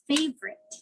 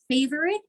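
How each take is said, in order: First: The middle vowel is dropped, two syllables. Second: The middle vowel is pronounced, three syllables. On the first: The speaker calls it right. "is favorite" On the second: The speaker calls it wrong. "Favorite is favorite"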